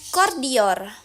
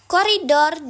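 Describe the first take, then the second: First: The word ends with dior. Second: The word ends with dor.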